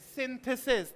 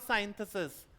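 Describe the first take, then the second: First: The first syllable has a short 'i' vowel. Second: The first syllable has a long 'ai' vowel. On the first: The speaker calls it right. "That is सिंथेसिस" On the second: The speaker calls it wrong. "Not साइंथेसिस"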